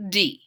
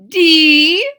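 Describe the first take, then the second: First: Class echo. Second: High, loud teacher letter; teacher calls letter. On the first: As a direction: repeat it back as a pupil. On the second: Teacher calls a letter, high loud. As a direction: call it out crisply. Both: Acted.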